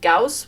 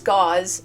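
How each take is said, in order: First: The name ends with a hissing s sound. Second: The name ends with a buzzing z sound. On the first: It is treated as a German name. The speaker calls it wrong. "a knee-jerk reaction to pronounce it Gauss, which is from like Carl Friedrich Gauss" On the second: It is treated as an English name. The speaker calls it right. "it's Gauze, just spelled with an S instead of a Z"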